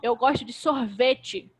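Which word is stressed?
sorvete. The stress falls on the word sorvete. It is ice cream I like, not yogurt. "Não é de iogurte, é de sorvete"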